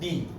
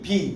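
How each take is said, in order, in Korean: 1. B는 영어식으로 발음해요. 유성음이에요. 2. B는 한국식으로 발음해요. 무성음이에요. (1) "영어 발음 B" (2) "이게 한국 발음이고요"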